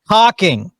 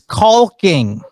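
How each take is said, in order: First: No L sound is pronounced. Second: The L sound is clearly pronounced. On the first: The speaker calls it right. "It's pronounced caulking" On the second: The speaker calls it wrong. "they sure as heck pronounce the L in caulking"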